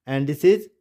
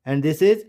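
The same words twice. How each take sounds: The two takes are said the same way.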